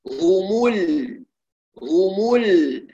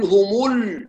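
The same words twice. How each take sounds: First: هم ال very slow, lips back at rest on the lam; lips relaxed at lam. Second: هم ال with the lips still rounded on the lam; wrong rounded lam. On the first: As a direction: drag it slowly, unround at the lam. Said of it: "هكذا". (هم ال مع إعادة الشفتين للسكون) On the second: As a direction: show the error, rounding carried over. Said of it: "لا نقول". (هم ال بضم الشفتين خطأً) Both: Shown as a demonstration.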